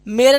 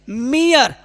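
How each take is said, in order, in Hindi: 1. यह शब्द दो अक्षरों में बोला जाता है, 'meray'। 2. यह शब्द 'ee-uh' की ध्वनि-सरकन के साथ बोला जाता है, 'meer'। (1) "मेरे नहीं पढ़ेंगे" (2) "पढ़ेंगे मियर"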